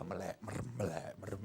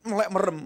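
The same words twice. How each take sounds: First: "melek merem" barely murmured, much softer and lower, as if eyes half shut; dazed mumble. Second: Said in the usual way. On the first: Shown as a demonstration. Preacher mimics an entranced pastor, murmuring "melek merem" very softly and low. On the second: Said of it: "Pak Pendeta itu kalau jalan gimana?".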